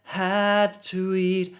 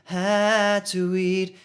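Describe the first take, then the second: The two takes are said the same way.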